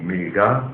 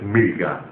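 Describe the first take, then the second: First: It is said with a foreign, broken pronunciation. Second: It is said with native Greek pronunciation. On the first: "you can say it with broken uh, Greek pronunciation" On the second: "original Greek pronunciation"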